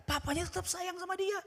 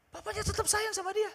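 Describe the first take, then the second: First: Said in the usual way. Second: Whole line lifted much higher; lifted, insistent restatement; high emphatic repeat. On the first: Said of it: "repeated line". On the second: Shown as a demonstration. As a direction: repeat it higher to drive it home. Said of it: "repeated, raised".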